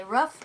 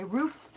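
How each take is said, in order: First: Roof said with a short vowel, like "ruff"; roof, the Philly way, short u; short roof, rhymes with hoof. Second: Roof said with a long oo, like "rooof"; roof, the standard way; long roof, rhymes with proof. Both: Shown as a demonstration. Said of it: "I don't care how you say it".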